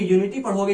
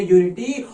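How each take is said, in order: First: Said in the usual way. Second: unity said louder with a rising end; unity hit hard as the answer; stress on unity. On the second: Shown as a demonstration. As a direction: punch unity for the class. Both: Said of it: "इसको क्या पढ़ोगे?".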